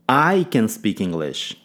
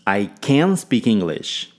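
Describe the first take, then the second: First: The stress falls on the word I. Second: The stress falls on the word can. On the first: It is me, not someone else, who speaks it. "Ênfase no pronome" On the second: The speaker is truly able to do it. "Ênfase em can"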